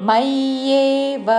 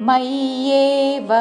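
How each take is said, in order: No difference in how they are said.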